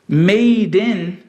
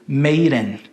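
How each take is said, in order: First: The D is a clear, separate stop. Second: The D is a quick tap, linked to 'in'.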